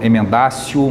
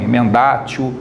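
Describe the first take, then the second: First: The consonant before -io is an s sound. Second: The consonant before -io is a t sound. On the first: "ou emendácio" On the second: "A gente escreve emendatio ou mutatio, né? Pode ser pronunciado assim também"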